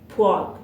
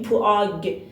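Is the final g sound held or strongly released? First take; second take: held; released. First: The final g is swallowed in the throat. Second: The final g is strongly emphasized and released. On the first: The speaker calls it right. "انگار این پدچیما رو توی گلومون خفش میکنیم" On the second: The speaker calls it wrong. "نمیگیم پواگ، یعنی روی گش اونقدر تاکید نداریم"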